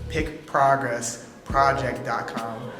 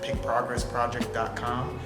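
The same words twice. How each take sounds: First: The phrase is said at a slower pace. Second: The phrase is said at a normal, quicker pace.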